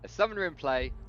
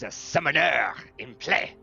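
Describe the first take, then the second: First: It is spoken in the speaker's normal accent. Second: It is spoken with a put-on French accent. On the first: "my non-French accent" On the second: "I'm going to be French with my accent"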